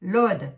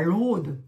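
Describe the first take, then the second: First: "L'Aude" loud, with an open o; emphatic correction to an open o in "L'Aude"; corrected vowel. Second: "l'Aude" with a long closed o; Lorrain-accented closed o in "l'Aude". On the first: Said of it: "pas l'Aude". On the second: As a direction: say "l'Aude" like lohd, as the slip to avoid. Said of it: "Oh, ouais, mon accent lorrain". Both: Shown as a demonstration.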